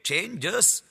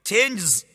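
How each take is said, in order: First: The word ends in a fuller 'jus' sound. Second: The word ends in a clipped 'jz' sound. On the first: The speaker calls it right. "changes යනුවෙනුයි එය උච්චාරණය වන්නේ. එනම් just යනුවෙන් ශබ්දයක් එහි අග ඇහෙනවා" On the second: The speaker calls it wrong. "changes ලෙස නොවේ"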